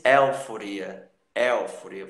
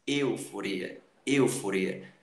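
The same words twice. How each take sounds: First: "euforia" wrongly said as éu-foria; open E mispronunciation. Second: "euforia" said as êu-foria; lower-pitched, careful "euforia" with closed Ê. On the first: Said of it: "Você não diz euforia". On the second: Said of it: "fechar o som do E". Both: Shown as a demonstration.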